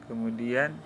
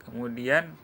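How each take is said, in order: No difference in how they are said.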